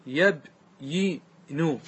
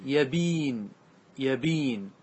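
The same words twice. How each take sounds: First: يبين broken very slowly into yab, yi, nu; original form, syllabified. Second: يبين as ya-BIIN, long ii, falling; resulting form read out. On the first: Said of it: "أصله يبين". (تقطيع «يبين» ببطء: يَبْ، يِ، نُ) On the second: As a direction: draw out يبين with no final vowel, ya-biin. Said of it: "صارت". (نطق «يبين» بعد النقل: يَبِين بمدّ الياء) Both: Shown as a demonstration.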